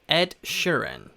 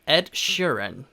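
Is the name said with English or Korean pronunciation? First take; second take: English; English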